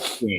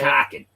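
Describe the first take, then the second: First: It is said with a clear L sound. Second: It is said without an L, Boston style.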